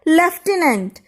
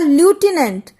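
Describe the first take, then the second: First: The first syllable sounds like 'lef', with an f. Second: The first syllable sounds like 'loo', with no f. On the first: It is the accepted way to say the word. The speaker calls it right. "यहां पर इसे बोला जाता है लेफ्टिनेंट, जबकि यहां कहीं भी हमने एफ नहीं लिखा है" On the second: It is read letter by letter from the spelling. The speaker calls it wrong. "अगर हम इन अक्षरों को देखकर बोलें तो इसे कहा जाएगा ल्यूटिनेंट, लेकिन ये गलत हो जाएगा"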